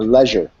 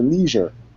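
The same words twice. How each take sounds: First: It is said with a British pronunciation. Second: It is said with an American pronunciation.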